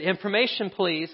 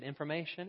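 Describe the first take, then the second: First: Put-on child calling out. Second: Soft operator answer. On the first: Boy calls with hurt finger. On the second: Acted.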